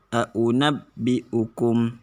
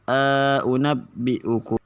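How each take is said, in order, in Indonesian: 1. Vokal pendek memisahkan dua hamzah. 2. Vokal panjang memisahkan dua hamzah. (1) "tahqiq biduni idkhal" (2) "tahqiq ma'al idkhal"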